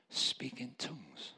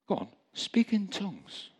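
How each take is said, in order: First: Soft, slow, slightly raised voice; a gentle, drawn-out quiet prompt; little inner voice. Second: High-pitched coaxing nudge; little voice, insisting. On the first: Little voice to a sobbing man, soft and slow. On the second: Little voice urging the sobbing man on, high and insistent. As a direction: urge it again, pitched well up. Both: Retold or imitated. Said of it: "a little voice came to me and said".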